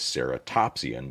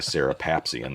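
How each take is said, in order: First: The middle syllable is said as 'top'. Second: The middle syllable is said as 'pap'. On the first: The speaker calls it right. "What he meant to say was Ceratopsian" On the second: The speaker calls it wrong. "That's not a real word"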